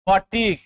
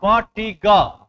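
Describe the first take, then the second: First: Said in the usual way. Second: fatigue drawn out slowly, syllable by syllable; sounded out slowly. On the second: Shown as a demonstration. Teacher sounding out a word for the class, slow and syllabic.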